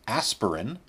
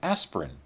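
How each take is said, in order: First: The vowel after 'asp' is kept. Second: The vowel after 'asp' is dropped. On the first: "I never said aspirin" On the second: "I said aspirin, and I spelled it without the first I"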